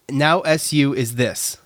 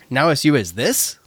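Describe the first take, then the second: First: The voice stays flat at the end. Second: The voice rises at the end.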